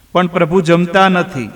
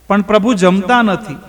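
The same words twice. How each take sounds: First: Said in the usual way. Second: Higher, mildly tearful પણ પ્રભુ જમતા નથી; a hint of tears on પણ પ્રભુ જમતા નથી, raised pitch; lightly weepy, higher પણ પ્રભુ જમતા નથી; crying voice. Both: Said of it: "ધનાએ રડતા અવાજે કહ્યું".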